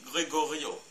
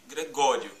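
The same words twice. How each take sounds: First: Gregorio evenly, weight on the final "o"; French final stress. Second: Gregório with GÓ loud and long; Gregório said the Portuguese way, strong middle; Portuguese stress. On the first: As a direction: lengthen the last syllable of Gregorio. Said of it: "en français on dit Gregorio". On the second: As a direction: punch the "gó" in Gregório. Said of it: "en portugais on dit Gregório". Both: Shown as a demonstration.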